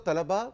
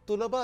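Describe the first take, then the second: First: The first vowel is a short 'a' sound. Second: The first vowel is a short 'u' sound. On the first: It refers to many male students. "अगर जबर से है तो तलबा मेल students बहुत से" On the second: It refers to boys and girls together. "और तुलबा अगर पेश से है"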